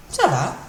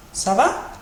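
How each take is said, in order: First: "Ça va" with va coming down; answer intonation. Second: "Ça va" with va rising high; question intonation. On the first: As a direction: give "Ça va" back as the reply. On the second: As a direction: ask "Ça va", tone up at the end. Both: Shown as a demonstration. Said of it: "with a different intonation".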